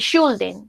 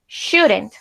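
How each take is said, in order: First: The L is sounded in the word. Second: The L is silent in the word. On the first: The speaker calls it wrong. "aquí no pronunciamos la L, no decimos ni should ni shouldn't" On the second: The speaker calls it right. "decimos should, shouldn't"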